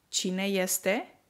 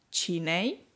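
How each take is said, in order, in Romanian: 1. Verbul se spune ca un cuvânt întreg. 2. Verbul este redus la un singur sunet scurt. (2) "o prescurtare"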